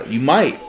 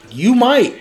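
First: Said in the usual way. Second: "You might" pitched high and pointed; high teasing emphasis. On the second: Real, not acted. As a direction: land "might" as a playful threat.

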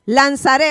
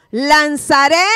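First: Said in the usual way. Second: "lanzaré" lifted on a rising tune, inviting the echo; "lanzaré" called out with a rise. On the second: Shown as a demonstration. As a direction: lift "lanzaré" at the end for the crowd to repeat. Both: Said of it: "hazlo conmigo".

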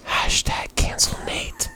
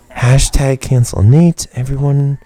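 First: Slow, conspiratorial whisper; mock whisper. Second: Loud, slow slogan; mock announcement. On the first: Host starting a joke campaign against co-host, whispered. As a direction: whisper it like a secret slogan. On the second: Host rallying listeners against co-host, loud mock announcement. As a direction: proclaim it loudly to everyone.

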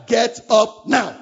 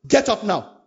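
First: Louder and slow, insistent; firm command. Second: Said in the usual way. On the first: Pretend. Preacher telling the worker firmly to get up. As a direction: spell out the order, firm and slow. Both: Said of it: "you say".

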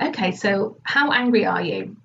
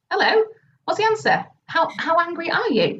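First: Said in the usual way. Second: High, pushy nudge for an answer; impatient prompting. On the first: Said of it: "So I'm like". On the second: Retold or imitated. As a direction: prod her to finally answer. Retelling pushing a silent client.

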